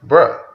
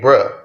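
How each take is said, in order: First: Stunned bruh. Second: Said in the usual way. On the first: Retold or imitated. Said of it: "this shit had me like". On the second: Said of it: "I understand why this shit's called Bruh".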